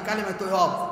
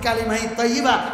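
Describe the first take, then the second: First: The final word is clipped short, ending in -ob. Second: The final word is said in full, ending in -iba. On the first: The speaker never learned the phrase properly. The speaker calls it wrong. "অনেক বান্দা আছে কই কালিমায় তয়্যব" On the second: The speaker has learned the phrase properly. The speaker calls it right. "আমি বলতেছি কালিমাই তয়্যিবা"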